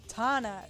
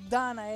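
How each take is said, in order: First: The name begins with a T sound. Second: The name begins with a D sound. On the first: The speaker calls it right. "With the T, not with the D" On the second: The speaker calls it wrong. "It's not Donna"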